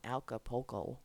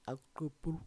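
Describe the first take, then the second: First: The name is said with an American accent. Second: The name is said with a Spanish accent. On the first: The speaker calls it wrong. "That's like how Americans say it" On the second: The speaker calls it right. "How do the people from Acapulco say it? It's probably like"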